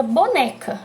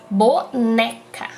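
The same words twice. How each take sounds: First: Said in the usual way. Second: "Boneca" slowly split, with a strong "ne"; stress on NÉ. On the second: Shown as a demonstration. Teacher demonstrating the stressed syllable, slow "Boneca" stressed on "ne". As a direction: draw out "Boneca" by syllables, hitting "ne". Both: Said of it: "O né fica mais forte".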